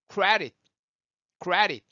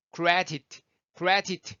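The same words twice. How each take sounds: First: Credit as "kra-ri", tapped D and held-back T; relaxed American credit, no puff at the end. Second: Credit with a puff on the last T; crisp T ending credit; released final T. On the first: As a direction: swallow the last T of credit. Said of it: "발음하기 편하도록 바꿔지는". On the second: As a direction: finish credit on a clear T. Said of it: "휴지가 움직이는 게 다르죠". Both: Shown as a demonstration.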